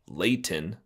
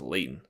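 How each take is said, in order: First: The T in the middle is clearly pronounced. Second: The T in the middle is dropped.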